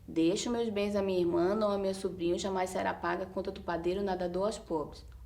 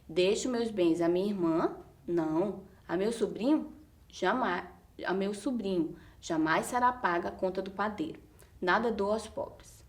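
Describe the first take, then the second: First: It is read straight through without stopping. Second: It is read with pauses between the phrases.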